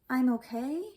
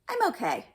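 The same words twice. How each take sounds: First: The pitch rises at the end. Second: The pitch falls at the end. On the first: The speaker is not sure they are okay. "It sounds like you're not really sure" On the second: The speaker knows they are okay. "it sounds like you know"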